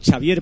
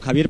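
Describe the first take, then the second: First: The name is pronounced the Catalan way. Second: The name is pronounced the Spanish way.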